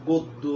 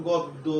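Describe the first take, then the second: No difference in how they are said.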